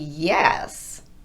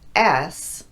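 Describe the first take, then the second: First: The word starts with a gliding y sound. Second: The word starts directly on the vowel, without glide. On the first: The speaker calls it right. "That should be yes" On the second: The speaker calls it wrong. "you're missing the Y at the beginning"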